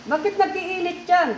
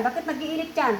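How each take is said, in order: First: Higher, forceful repeat of the question; demanding. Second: Said in the usual way. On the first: Real, not acted. Healer demands why the child is burning up, demanding. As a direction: press hard with raised pitch.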